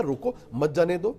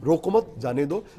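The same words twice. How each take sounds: First: Slow, break after रोको, then मत जाने दो as one phrase; pause after रोको. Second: Slow, रोको मत as one phrase, break, then जाने दो; pause after मत. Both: Shown as a demonstration. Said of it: "तीन ढंग से बोला जा सकता है".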